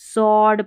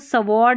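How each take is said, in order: First: No w sound is heard after the s. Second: A w sound is heard after the s. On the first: The speaker calls it right. "सॉर्ड पढ़ना है" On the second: The speaker calls it wrong. "सवॉर्ड नहीं"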